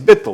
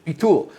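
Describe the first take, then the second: First: It is said with an Ashkenazic Hebrew accent. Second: It is said with a non-Ashkenazic Hebrew accent. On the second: "with that pronounce, pronunci- pronunciation"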